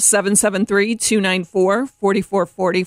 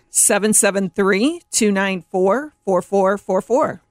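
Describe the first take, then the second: First: The number is said at a quicker pace. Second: The number is said at a slower pace.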